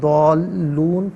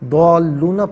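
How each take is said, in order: First: The word ends on the n consonant. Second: The word ends with a final a vowel. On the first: The reading stops at this word. "वफ़ की सूरत में दौलून पढ़ा जाएगा" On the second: The reading continues without a stop. "दौलूना पढ़ेंगे"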